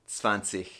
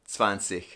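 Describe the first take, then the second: Both takes have the same delivery.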